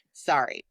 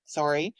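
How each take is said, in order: First: "sorry" with an open A, SAR-ee; American pronunciation. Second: "sorry" with a rounded O, SORE-ee; Canadian pronunciation. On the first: Showing her radio American accent trick, "sorry" as SAR-ee. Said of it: "switch all the O's to A's". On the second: Canadian host showing her native way, "sorry" as SORE-ee. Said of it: "which is how it's pronounced". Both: Shown as a demonstration.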